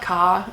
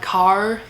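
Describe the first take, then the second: First: The R at the end is dropped. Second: The R at the end is pronounced. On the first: This is how New Zealanders say it. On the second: This is how Americans say it.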